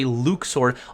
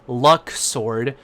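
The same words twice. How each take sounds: First: The first syllable does not sound like luck. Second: The first syllable sounds like the word luck. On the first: This is the newer official pronunciation. The speaker calls it wrong. "dumber sounding pronunciation" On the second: This is the pronunciation people always used. The speaker calls it right. "it kind of sounds like it has luck in it"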